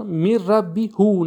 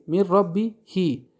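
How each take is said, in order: First: هو said as "hu", the rejected ending; میر ربی هو with a "hu" ending, marked as wrong; wrong form. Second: هی said as "hi" after the kasra; میر ربی هی ending in "hi", the correct reading; correct form. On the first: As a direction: say ربی هو with "hu" to show the mistake. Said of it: "نه". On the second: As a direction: say ربی هی with a clear "hi". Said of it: "بعد کسره آمده". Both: Shown as a demonstration.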